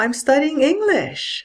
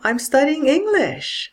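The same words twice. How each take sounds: First: The voice falls from a high pitch. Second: The voice falls from a high pitch.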